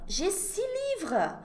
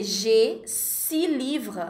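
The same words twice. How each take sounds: First: Je six livres said higher and slow, six as si; high slow example. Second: Je six livres said slowly, the x of six silent; slow example. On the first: Teacher repeats example to students, higher and slow. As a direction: lift and stretch Je six livres. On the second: Teacher models six before a consonant, slowly. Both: Shown as a demonstration. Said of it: "eu vou dizer".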